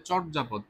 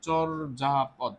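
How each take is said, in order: First: Said in the usual way. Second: চর্যাপদ stretched very slowly so the র before the য is heard; drawn out slowly. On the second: Shown as a demonstration. Teacher drawing out a word for students, very slow. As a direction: sound out চর্যাপদ slowly, holding each sound. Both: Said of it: "যা উচ্চারণ করবো তা লিখবো".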